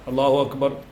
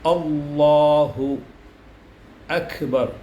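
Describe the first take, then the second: First: Each word starts with a weak, soft vowel. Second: Each word starts with a clear glottal catch. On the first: The speaker calls it wrong. "ആ ഹംസ ശരിക്കായി നമ്മൾ വെളിവാക്കിയിട്ടില്ല" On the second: The speaker calls it right. "തൊണ്ട ഇടുക്കി കാറ്റ് ഇല്ലാതെയാണ് നമ്മൾ ഹംസ ഉച്ചരിക്കേണ്ടത്"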